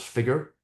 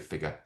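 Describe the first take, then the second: First: The word is said in an American accent. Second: The word is said in a non-American accent. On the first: The speaker calls it right. "I have to say that in an American accent" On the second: The speaker calls it wrong. "people can't understand when I say"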